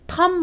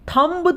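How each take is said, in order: First: The final b sound is silent. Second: The final b sound is pronounced. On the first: The speaker calls it right. "हम क्या बोलते हैं? थम बोलते हैं।" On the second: The speaker calls it wrong. "हम थंब तो नहीं बोलते ना"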